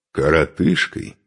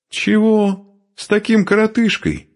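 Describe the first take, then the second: First: Offended echo. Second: "коротышкой" thrown out very high; high, indignant question on "коротышкой"; scornful disbelief. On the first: Short man echoing the insult, slow offended "коротышкой". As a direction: repeat "коротышкой" slowly, weighing the insult. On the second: Woman rejecting the short man, scornful on "коротышкой". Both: Acted.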